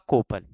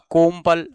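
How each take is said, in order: First: The vowel before p is nasalized, no m. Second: A full m sound comes before the p.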